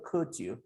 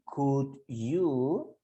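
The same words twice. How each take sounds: First: Said fast, with the words run together. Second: Said slowly, with each word sounded fully. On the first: "pero si hablamos rápido" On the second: "La forma lenta es decir could you"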